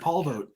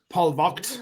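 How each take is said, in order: First: The name is pronounced the American way. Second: The name is pronounced the traditional German way. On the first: This is the pronunciation people already use. "it's too late to change, man. Just call me Paul Vogt" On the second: This is the family's original pronunciation. "is a traditional Prussian German pronunciation of it"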